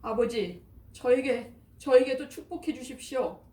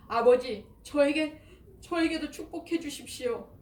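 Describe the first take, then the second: First: Higher, louder pleading wail of a wronged son; anguished crying plea. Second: Much higher, louder sobbing cry; wailing plea. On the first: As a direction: beg through grief, voice rising. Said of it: "비통에 차 큰 소리로 울부짖으며". (비통하게 울부짖는 목소리) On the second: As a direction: cry out to his father in despair. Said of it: "목 놓아 울었다". (목 놓아 우는 애원) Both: A narrator's reading.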